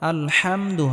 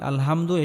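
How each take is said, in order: First: The h is pressed deep in the throat. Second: The h is a plain, light breathy sound. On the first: The speaker calls it right. "গলার মধ্যে হালকা চাপ দিয়ে উচ্চারণ করতে হবে" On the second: The speaker calls it wrong. "এটা হবে না"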